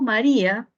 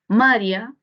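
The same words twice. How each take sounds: First: The stress is on the usual syllable. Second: The stress is moved to another syllable. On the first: "Si tenemos María" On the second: "movemos la sílaba tónica, tendríamos María"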